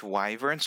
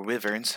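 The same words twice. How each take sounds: First: "wyverns" with a long i, as in wife; first pronunciation of wyverns. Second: "wyverns" with a short i, as in river; alternative pronunciation of wyverns. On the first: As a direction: say "wyverns" as WHY-vernz. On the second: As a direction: say "wyverns" as WIV-ernz. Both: Shown as a demonstration. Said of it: "however you want to pronounce it".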